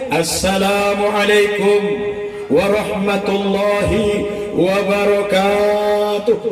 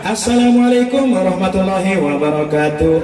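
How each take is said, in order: First: The greeting is said in a weighty, authoritative way. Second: The greeting is said in a flashy, theatrical way. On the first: The speaker wants to look dignified. "salamnya lain, biar sedikit kelihatan wibawanya" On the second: A performer on a big stage. "Ada yang model begitu"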